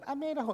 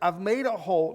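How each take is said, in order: First: It is said in a high, squeaky voice. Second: It is said in a normal speaking voice. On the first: "No, I'll do it" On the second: "I'm not going to do the voice"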